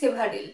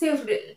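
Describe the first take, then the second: First: The middle vowel is pronounced fully. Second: The middle vowel is dropped. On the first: The speaker calls it wrong. "Several actually ভুল উচ্চারণ" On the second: The speaker calls it right. "It will be several"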